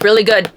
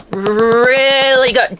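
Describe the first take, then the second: First: Said in the usual way. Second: "Really good" stretched out slowly; slow savoring. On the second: Shown as a demonstration. Reader praising the book, slow and savoring.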